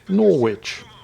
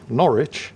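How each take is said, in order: First: The name is said the way it is spelled. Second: The name is said unlike the way it's spelled. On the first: The speaker calls it wrong. "It looks like that should be pronounced Norwich" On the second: The speaker calls it right. "at least pronounce it correctly"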